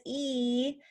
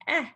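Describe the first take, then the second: First: "E" said as a held "ee"; long E. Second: "eh" as a brief vowel from exercise; short, rising isolated "eh". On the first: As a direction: stretch the letter name "E" as "ee". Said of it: "the long sound is". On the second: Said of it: "the short sound is". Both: Shown as a demonstration.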